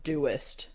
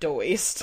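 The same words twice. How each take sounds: First: It sounds like the ending of 'Todoist'. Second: It sounds unlike the ending of 'Todoist'. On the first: The speaker calls it right. "they have a thing called the Todoist, and then I realized that the whole site is Doist" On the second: The speaker calls it wrong. "not Doist"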